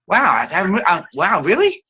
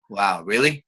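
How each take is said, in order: First: Higher, eager wow; light up with interest; excited demo. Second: Said in the usual way. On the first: Shown as a demonstration. Teacher shows excitement coming from the resonator. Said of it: "excitement in the voice". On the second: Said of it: "not coming from that resonator".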